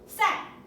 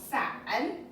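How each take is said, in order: First: The pitch falls sharply from high to low. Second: The pitch dips down and then rises. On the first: "and then down" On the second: "down and up"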